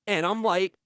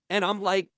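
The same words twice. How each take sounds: The two takes are said the same way.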